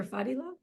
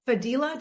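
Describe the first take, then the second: First: Fadila said FAH-dee-la, with a questioning rise; FAH-dee-la, asking if that's right; alternative pronunciation. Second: Fadila said fuh-DEE-la; tentative Fadila, first syllable light; first try at a name. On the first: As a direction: offer Fadila with a fuller FAH at the start. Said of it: "did I say that correctly, or". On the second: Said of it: "did I say that correctly". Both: Shown as a demonstration.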